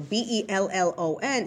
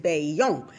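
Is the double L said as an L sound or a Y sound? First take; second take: L sound; Y sound. First: The double L is said as an L sound. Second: The double L is said as a Y sound. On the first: The speaker calls it wrong. "I was pronouncing it wrong" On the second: The speaker calls it right. "when things are a double L in Spanish, you pronounce the Y"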